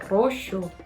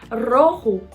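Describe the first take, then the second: First: The middle consonant is a soft sh sound. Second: The middle consonant is a throaty rasping sound. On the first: This is the medieval form. "era muito comum o som de sh" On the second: This is the modern form. "esse som mais parecendo um R para dentro"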